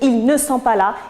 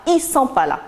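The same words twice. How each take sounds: First: The negation word ne is clearly pronounced. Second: The negation word ne is left out entirely. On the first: This is the standard register. "Au lieu de dire ils ne sont pas là" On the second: This is the familiar register. "avec l'absence, bien sûr, de l'adverbe de négation ne"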